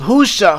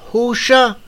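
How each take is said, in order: First: The final syllable begins with an 's' sound. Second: The final syllable begins with an 'sh' sound.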